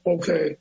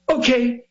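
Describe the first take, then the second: First: It is said flatly, without energy. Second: It is said with a lively pop.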